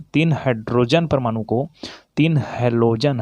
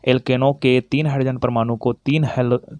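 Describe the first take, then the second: First: तीन hit hard and slowed right down; the teacher hammers the number home so students catch it; slow stressed तीन. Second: Said in the usual way. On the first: Shown as a demonstration. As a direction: spell out तीन hydrogen, तीन halogen word by word. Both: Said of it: "ये hydrogen बोल रहा हूँ ना".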